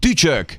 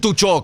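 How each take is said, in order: First: The first vowel is a front ü sound. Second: The first vowel is a back u sound. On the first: The speaker calls it right. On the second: The speaker calls it wrong. "Nem tucsok"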